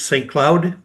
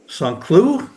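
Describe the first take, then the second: First: The name is pronounced the English way. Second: The name is pronounced the French way.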